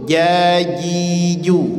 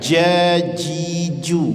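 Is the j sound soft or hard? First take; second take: soft; hard. First: The j sound is soft and gentle. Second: The j sound is hard and harsh. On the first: The speaker calls it right. "Jadi lembut" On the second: The speaker calls it wrong. "bukan jajiju"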